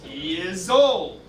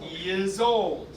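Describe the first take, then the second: First: The words run together with linking Y and Z sounds. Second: The words run together with linking Y and Z sounds.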